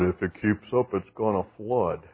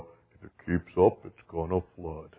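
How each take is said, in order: First: It is said in a normal speaking voice. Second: It is said in a slow, gloomy put-on voice.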